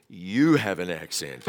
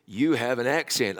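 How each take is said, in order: First: Drawn-out, stressed YOU, slower retort. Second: Said in the usual way. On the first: Retold or imitated. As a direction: lean long on "You", turning it back on them. His retort turns the remark back.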